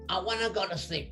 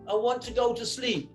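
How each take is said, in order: First: Want to is reduced to wanna. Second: Want to is said as two full words. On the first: This is the American way of saying it. "Americans, I wanna" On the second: This is the British way of saying it. "In English, we say"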